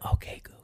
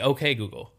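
First: It is said in a soft whisper. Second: It is said in a normal voice.

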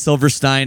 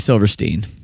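First: The name is said the German way. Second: The name ends with a 'steen' sound. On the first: This is how people in Germany say the name. "they call us [name] and that's fine" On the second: This is how the band says its own name. "We say [name]"

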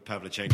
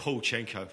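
First: The name is said in full as 'Pavlichenko'. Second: The name is shortened to 'Paulchenko'. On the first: The speaker calls it right. "Paul refused to say Pavlichenko" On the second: The speaker calls it wrong. "Paulchenko for Pavlichenko"

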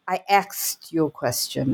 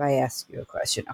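First: The verb is pronounced like axed, k before s. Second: The verb is pronounced like asked, s before k. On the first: "Ax versus ask" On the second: "instead of"

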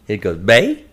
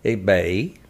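First: The tone rises sharply upward. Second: The tone dips down and then rises. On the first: "if it has a line that goes up" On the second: "it has a circle line, like, above it"

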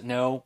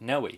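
First: The name is said as one syllable. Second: The name is said as two syllables. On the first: Other people say it this way. "I've heard people pronounce it No" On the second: The speaker believes this is the correct form. "I'm going to pronounce it Noé"

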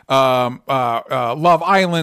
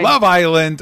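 First: It is said at normal, quiet volume. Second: It is said loudly, with emphasis.

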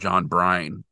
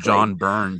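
First: The surname sounds like 'brine'. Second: The surname sounds like 'burn'. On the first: The speaker calls it wrong. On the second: The speaker calls it right.

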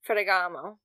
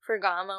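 First: It is said in an Italian accent. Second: It is said plainly, without a rolled R. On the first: The speaker calls it right. "That sounds better. Just give it an Italian accent" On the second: The speaker calls it wrong. "I can't pronounce it right because I can't roll my R's"

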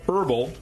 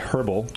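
First: It is said with an American pronunciation. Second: It is said with a British pronunciation.

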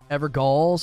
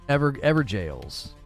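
First: The middle is pronounced with a hard g. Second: The middle is pronounced like 'jail'.

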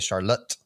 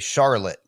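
First: The stress is on the last syllable. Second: The stress is on the first syllable.

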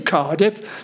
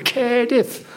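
First: It is said in a non-local accent. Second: It is said in a local Cardiff accent. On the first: This is not how locals say it. The speaker calls it wrong. "They don't say Cardiff" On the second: This is how locals say it. The speaker calls it right. "They go Cardiff"

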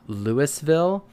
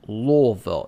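First: The name is said plainly, from the front. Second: The name is said from the back of the throat. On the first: The speaker calls it wrong. "It's not Louisville" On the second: The speaker calls it right. "It has to like come from the back of your throat"

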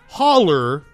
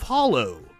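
First: It is pronounced the local way. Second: It is pronounced the non-local way.

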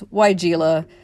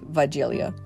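First: The name is said with the common English pronunciation. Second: The name is said with the original German pronunciation. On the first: "the consensus was Weigela" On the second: "the original German pronunciation would be Weigelia"

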